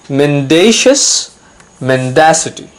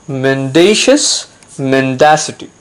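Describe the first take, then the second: No difference in how they are said.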